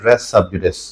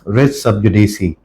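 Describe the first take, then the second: First: The last word ends on an s sound. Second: The last word ends with an ee sound. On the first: This is the commonly heard version. The speaker calls it wrong. "उसकी जो प्रोनाउंसिएशन हम यूजुअली सुनते हैं" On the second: This is the proper version. The speaker calls it right. "Correct pronunciation"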